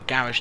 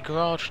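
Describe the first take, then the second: First: It is pronounced the British way. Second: It is pronounced the American way.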